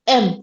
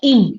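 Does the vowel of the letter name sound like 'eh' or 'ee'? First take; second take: eh; ee. First: The vowel is an open 'eh' sound. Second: The vowel is a close 'ee' sound. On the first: The speaker calls it wrong. "Not एम" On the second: The speaker calls it right. "आपको इसको आई के साथ प्रोनाउंस करना है या ई के साथ"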